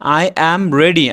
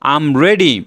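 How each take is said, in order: First: 'I am' is said as two full words. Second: 'I am' is contracted into one short syllable.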